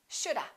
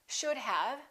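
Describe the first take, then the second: First: The word 'have' is reduced to 'a'. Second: The word 'have' is pronounced in full.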